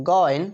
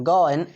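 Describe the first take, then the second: No difference in how they are said.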